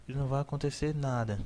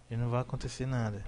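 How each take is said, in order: Both takes have the same delivery.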